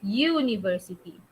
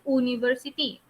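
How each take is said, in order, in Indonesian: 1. Diawali dengan bunyi 'yoo'. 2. Diawali dengan vokal 'oo' biasa. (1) "in English, memang huruf U bunyi U" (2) "Macam bahasa Melayu"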